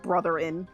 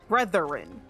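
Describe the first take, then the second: First: The word is said as 'brotherin'. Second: The word is said as 'brethren'. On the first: The speaker calls it wrong. "Not brotherin" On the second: The speaker calls it right. "say the word right"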